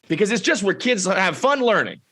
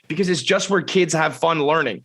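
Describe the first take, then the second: First: It is read in a salesy advertisement voice. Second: It is read in a plain, ordinary voice.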